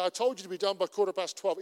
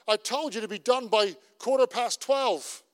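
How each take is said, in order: First: Said in the usual way. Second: Raised, a little louder, agitated; agitated retort. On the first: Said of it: "Or he could come to me and say". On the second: Retold or imitated. Pastor voicing an irritated colleague, a bit agitated. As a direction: snap back about the deadline. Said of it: "he's a bit agitated about it".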